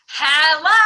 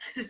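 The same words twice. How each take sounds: First: It is said very loudly. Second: It is said very quietly.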